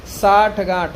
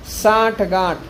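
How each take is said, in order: Both takes have the same delivery.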